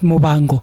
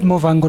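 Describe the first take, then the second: First: The middle consonant is a b sound. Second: The middle consonant is a v sound. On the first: The speaker calls it right. "not Mobango" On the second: The speaker calls it wrong. "always said Movango"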